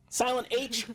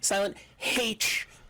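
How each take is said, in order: First: It is said in a plain American accent. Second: It is said in a British accent.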